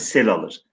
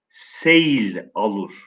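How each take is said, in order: First: The word is said with one syllable, sel. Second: The word is said with two syllables, se-yil. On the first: The speaker calls it right. "Sel diye telaffuz ediyoruz" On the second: The speaker calls it wrong. "seyil şeklinde telaffuz etmiyoruz"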